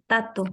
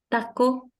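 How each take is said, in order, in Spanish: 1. La segunda consonante es un sonido T. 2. La segunda consonante es un sonido K. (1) "te van a decir tato" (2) "En vez de decir"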